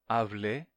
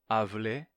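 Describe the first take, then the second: No difference in how they are said.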